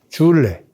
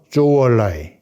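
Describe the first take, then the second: First: The name uses the Korean character reading. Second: The name uses the Chinese pronunciation.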